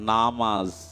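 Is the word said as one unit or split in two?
one unit. The word is said as one unbroken unit. It names the prayer. "নামাজ শব্দটার"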